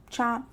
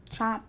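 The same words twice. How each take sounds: The two takes are said the same way.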